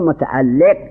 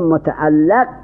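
First: The vowel after the L is 'i'. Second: The vowel after the L is 'a'. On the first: "کسر لام" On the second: "به فتح لام"

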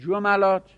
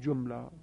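First: The m is followed by an a vowel. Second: The m is followed by no vowel. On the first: "فتحه بدید عین الفعل رو" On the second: "میتونید به سکون بخونید"

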